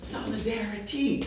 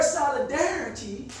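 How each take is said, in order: First: Solidarity low and hushed, broken into syllables; sounded-out solidarity. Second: Said in the usual way. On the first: Shown as a demonstration. Teacher has listeners hear the air, sounding out Solidarity. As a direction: break up Solidarity so the "air" inside is heard. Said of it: "Listen to it". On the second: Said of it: "look how you pronounce it".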